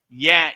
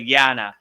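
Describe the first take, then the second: First: The word ends without a final vowel. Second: The word ends with a final vowel. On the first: "they drop the a, so like they would say yan" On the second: "instead of yana"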